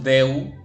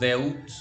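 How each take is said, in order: First: The vowel is said as two sounds, e then u. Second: The word ends with an audible t sound. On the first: "No decimos deu" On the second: "no decimos deut"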